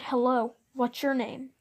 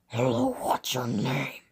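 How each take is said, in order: First: It is said in a plain, ordinary voice. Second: It is said in a creepy put-on voice. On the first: This is not how the man sounded. The speaker calls it wrong. "But it wasn't in that voice" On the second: This is how the man sounded. The speaker calls it right. "It was more like this"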